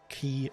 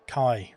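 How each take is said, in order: First: The vowel sounds like "ee" as in see. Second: The vowel sounds like "eye" as in I. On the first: The speaker calls it wrong. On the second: The speaker calls it right.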